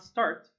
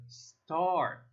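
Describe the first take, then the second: First: "start" said louder with a wrong vowel. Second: "start" slow with a long ah. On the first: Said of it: "Not start". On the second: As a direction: stretch the ah in "start". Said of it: "but rather start". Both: Shown as a demonstration.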